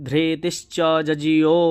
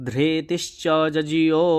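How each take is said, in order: Both takes have the same delivery.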